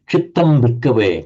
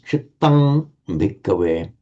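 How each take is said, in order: First: Spoken quickly, the first word ends in m. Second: Words separated, the first word ends in ng. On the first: "If you were speaking it as a rapid sequence of words" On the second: "But separating the words"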